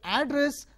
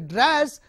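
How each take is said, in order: First: The stress is on the first syllable. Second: The stress is on the second syllable. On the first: It names the place where someone lives. "if the stress is on uh, first syllable" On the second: It means speaking to someone. "the stress is on the second syllable"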